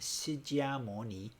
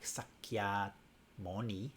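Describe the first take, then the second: First: It uses the modern Mandarin pronunciation. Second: It uses another dialect's pronunciation. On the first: "So in modern Mandarin" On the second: "If you say it in some other dialects, it sounds more like"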